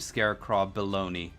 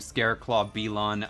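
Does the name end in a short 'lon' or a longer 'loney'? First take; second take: longer 'loney'; short 'lon'. First: The name ends with a longer 'loney' sound. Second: The name ends with a short 'lon' sound. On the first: This is how the speaker says the name. "I call him" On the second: This is how the other player says the name. "You call him"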